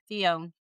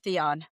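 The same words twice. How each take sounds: First: The last syllable rhymes with 'own'. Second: The last syllable does not rhyme with 'own'. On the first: The speaker calls it right. "like O W N" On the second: The speaker calls it wrong. "instead of"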